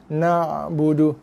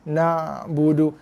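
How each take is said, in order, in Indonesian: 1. Bunyi ain ditahan sedikit dengan ekor yang memanjang. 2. Bunyi ain ditahan sedikit dengan ekor yang memanjang.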